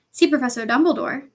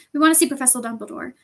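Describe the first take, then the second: First: Louder, incredulous question; suspicious repeat. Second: Understated brave request; rather brave. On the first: Professor doubts the students' request, suspicious. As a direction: echo it as if it sounds very fishy. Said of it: "repeated, as though this was a very fishy thing". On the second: Student asks a stern professor, rather bravely. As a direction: state it with a little courage. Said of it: "said Hermione rather bravely". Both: A narrator's reading.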